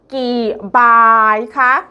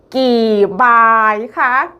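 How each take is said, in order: No difference in how they are said.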